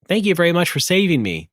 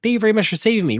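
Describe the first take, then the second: First: It is said at a normal pace. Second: It is said very fast.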